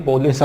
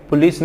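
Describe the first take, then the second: First: "पुलिस" said as "po-les"; correct pronunciation. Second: "पुलिस" with short u, "pu-lees"; wrong pronunciation. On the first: Teacher correcting learners, "पुलिस" as po-les. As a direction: give "पुलिस" a long o and an e. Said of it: "पुलिस आता है". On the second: Teacher rejecting the everyday form, "पुलिस" as pu-lees. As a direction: say "पुलिस" the common way, with u. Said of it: "पुलिस नहीं आती है". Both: Shown as a demonstration.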